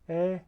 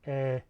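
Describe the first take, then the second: First: The vowel is said at a higher pitch. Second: The vowel is said at a plain, lower pitch. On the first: "high tone ... so it's a higher pitch"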